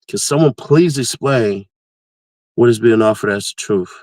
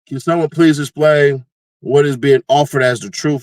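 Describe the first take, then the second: First: It is read a little more slowly. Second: It is read at a normal speed.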